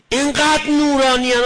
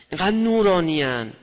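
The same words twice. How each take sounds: First: Much higher and much louder, swelling on انقدر; rapturous. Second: Said in the usual way. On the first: Acted. Preacher exclaiming in awe at how radiant such people are. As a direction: burst out in awe.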